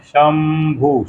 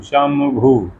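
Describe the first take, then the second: First: शंभु stretched very slowly, bindu as m; very slow teaching शंभु; drawn-out शंभु. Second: Said in the usual way. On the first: Shown as a demonstration. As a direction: hold शंभु long to show the m sound. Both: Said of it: "उसी बिंदी को म पढ़ते हैं".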